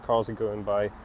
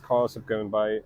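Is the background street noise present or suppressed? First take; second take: present; suppressed. First: Street noise is heard behind the voice. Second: Street noise is filtered out behind the voice. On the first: "the noise cancellation is not turned on" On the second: "now the noise cancellation is turned on"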